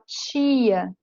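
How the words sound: Said with an accent from elsewhere in Brazil. "Já em outras partes do Brasil vai falar tia"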